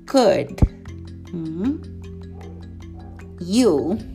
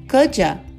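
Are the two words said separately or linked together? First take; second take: separately; linked. First: The two words are said separately with a break. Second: The two words are joined into one unit. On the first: "vamos treinar essa pronúncia palavra por palavra" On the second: "vamos grudar o could com you. Vai ficar assim"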